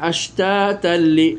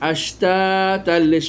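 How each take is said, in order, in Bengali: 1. শব্দটি সরাসরি পরের শব্দের সঙ্গে গিয়ে মেশে। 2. শব্দটি সরাসরি পরের শব্দের সঙ্গে গিয়ে মেশে।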